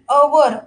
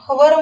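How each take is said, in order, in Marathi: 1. या शब्दाची सुरुवात स्वर आवाजाने होते. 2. या शब्दाची सुरुवात h आवाजाने होते. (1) "अवर असं म्हणतो" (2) "हवर म्हणतो का नाही"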